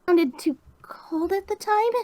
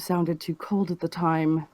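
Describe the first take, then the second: First: It is delivered in a timid, shy way. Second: It is delivered in a cold, distant way.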